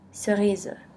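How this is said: The final e is pronounced as a schwa.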